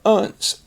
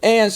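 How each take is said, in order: First: The ending has a weak, reduced vowel. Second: The ending has a full, open vowel. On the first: The speaker calls it right. "it comes out unce" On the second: The speaker calls it wrong. "instead of ants"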